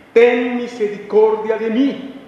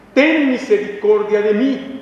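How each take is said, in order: No difference in how they are said.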